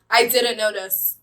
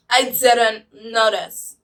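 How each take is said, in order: First: Said in the usual way. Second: "I didn't notice" very slow and deliberate; slowed right down on "didn't notice"; emphatic repeat. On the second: Real, not acted. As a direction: drag out "I didn't notice", leaning on each word.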